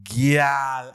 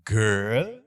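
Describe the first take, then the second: First: It is said with a Trinidadian pronunciation. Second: It is said with a standard pronunciation. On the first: "is gyal" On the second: "it's not girl"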